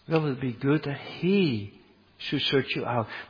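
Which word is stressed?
none. No single word gets special stress.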